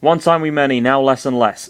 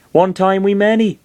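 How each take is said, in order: First: Half-hearted West Country creature voice; West Country attempt. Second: High creature voice gone Welsh; botched West Country that comes out Welsh; lilting high Welsh-sounding critter; accidental Welsh accent. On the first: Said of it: "that's totally Welsh. Whatever". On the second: Acted. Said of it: "that's totally Welsh".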